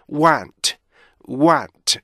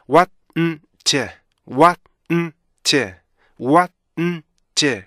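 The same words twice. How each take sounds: First: Want joined, keeping its three beats. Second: Want split into wa, n, t. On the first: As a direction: say want in one drawn word with a final t. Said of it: "이렇게 세 개의 리듬으로". (이어 읽은 want) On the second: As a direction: sound out want in three separated beats. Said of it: "세 개의 리듬으로". (세 박으로 끊은 want) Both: Shown as a demonstration.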